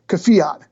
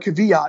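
First: It sounds like Fiat with a K added. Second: It does not sound like Fiat with a K. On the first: The speaker calls it right. "is like the car, Fiat with a K in front" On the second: The speaker calls it wrong. "It's not Kvyat or Kvyat as we say it"

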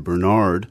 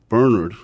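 First: The name is said the American way. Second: The name is said the Irish way.

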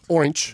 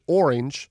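First: The word ends with a 'ch' sound. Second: The word ends without a 'ch' sound. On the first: The speaker calls it wrong. "Not orange" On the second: The speaker calls it right. "I never say it with a CH"

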